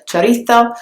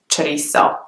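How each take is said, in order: First: It is said with a Spain Spanish th sound. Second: It is said with Mexican Spanish, without th sound. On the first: "in Spanish you would say the Z sound very differently" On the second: "in Mexico ... they don't have the th sound"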